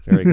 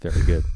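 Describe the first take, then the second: First: High, loud mock teacher praise. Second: Said in the usual way. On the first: Host praising the guest's pun, hammed-up loud praise.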